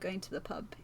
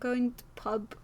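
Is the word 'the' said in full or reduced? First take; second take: full; reduced. First: The word 'the' is pronounced in full. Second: The word 'the' is reduced to a glottal stop.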